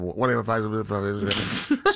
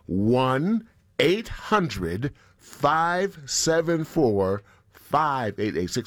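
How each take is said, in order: First: The number is said quickly and rushed. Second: The number is said slowly and deliberately.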